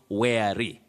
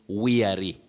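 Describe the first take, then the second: First: The first vowel sounds like 'air'. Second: The first vowel sounds like 'ear'. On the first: The speaker calls it wrong. "not weary" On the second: The speaker calls it right. "you can realize that you say weary"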